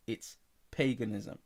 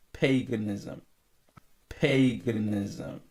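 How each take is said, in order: First: Said in the usual way. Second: Paganism drawn out slowly and loud; emphatic preaching. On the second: Real, not acted. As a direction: hammer the word Paganism, stretching it. Preacher repeating word for emphasis.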